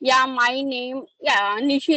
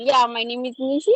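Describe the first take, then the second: First: It sounds hesitant and broken up. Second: It sounds confident and smooth.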